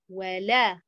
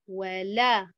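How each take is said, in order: Both takes have the same delivery.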